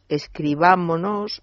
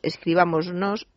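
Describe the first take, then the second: First: No s sound comes before the final nos. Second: An s sound comes before the final nos. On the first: The speaker calls it right. "se pierde obligatoriamente la S" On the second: The speaker calls it wrong. "Muchísimas personas dicen ... que está mal dicho"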